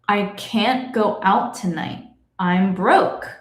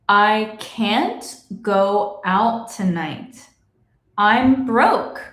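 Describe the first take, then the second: First: It is said at normal speed. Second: It is said slowly.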